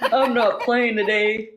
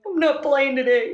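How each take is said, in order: First: Laughing through the words, slowed down; giggling while insisting you're not joking. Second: Higher, almost crying with laughter; laughing harder. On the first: Laughing retort to friend. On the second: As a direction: repeat it, breaking up into laughter. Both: Real, not acted.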